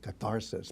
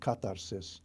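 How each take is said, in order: First: It is said with an English pronunciation. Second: It is said with an Ancient Greek pronunciation.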